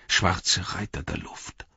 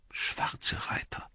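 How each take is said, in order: First: Slow, soft murmur, lightly voiced. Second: Hushed, whispered, drawn-out murmur. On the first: Pippin naming the riders of the air, slow soft murmur. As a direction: murmur it slowly, half to yourself. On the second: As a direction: murmur it slowly under your breath, almost voiceless. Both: A narrator's reading. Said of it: "murmelte Pippin".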